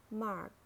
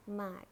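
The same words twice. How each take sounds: First: "mark" with a sounded American R; American "mark", curl the R before k; American accent. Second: "mac" as British mark, silent R; British "mac", long ah, said mahk; British accent. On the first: Teacher models mark for learners, American accent. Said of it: "R in American English". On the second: Teacher models mark for learners, British accent. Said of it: "in British English". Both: Shown as a demonstration.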